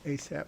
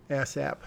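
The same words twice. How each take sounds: First: Asap with a long first A, "AY-sap"; corrected pronunciation. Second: Ass app with short A in both syllables; joke mispronunciation. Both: Shown as a demonstration. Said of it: "No, asap".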